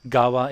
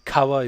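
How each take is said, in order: First: The word begins with a softer G sound. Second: The word begins with a hard K sound. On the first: The word is joined to another word. "it kind of softens the K into a G" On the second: The word stands alone. "Kawa is river"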